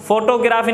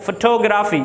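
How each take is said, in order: First: A full first o in "फोटोग्राफी"; "फोटोग्राफी" read as photo plus graphy; wrong pronunciation. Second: "फोटोग्राफी" leaning on the second syllable; correct pronunciation. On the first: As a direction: say "फोटोग्राफी" as FO-to-graa-fee. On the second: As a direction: say "फोटोग्राफी" as fuh-TO-gra-fee. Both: Shown as a demonstration. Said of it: "फोटोग्राफी नहीं".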